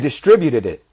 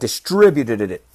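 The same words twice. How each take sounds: First: The word has its normal number of syllables. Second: The word has an extra syllable added. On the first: The speaker calls it right. "Así se dice" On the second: The speaker calls it wrong. "I added an extra syllable"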